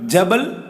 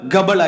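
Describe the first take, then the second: First: The word starts with a j sound. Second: The word starts with a hard g sound.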